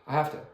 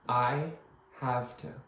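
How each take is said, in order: First: The phrase is said quickly. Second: The phrase is said very slowly. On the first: "get faster and faster" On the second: "Let's say it very slowly"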